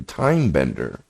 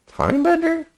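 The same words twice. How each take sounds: First: Said in the usual way. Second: TIME BENDER as a high, questioning echo; incredulous question. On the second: Real, not acted. Reader doubting a character label just read out, incredulous question. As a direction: query "Time bender?" with the pitch jumping way up.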